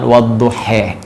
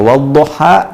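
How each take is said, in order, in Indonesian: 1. Vokal akhirnya adalah bunyi 'e'. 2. Vokal akhirnya adalah bunyi 'a' yang terbuka. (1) "dibaca sebagian dengan e dengan imalah" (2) "kita baca wadduha"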